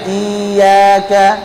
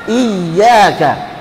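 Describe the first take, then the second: First: The ya is weakly pressed, like a long vowel. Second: The ya is firmly pressed as a doubled consonant. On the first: The speaker calls it wrong. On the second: The speaker calls it right.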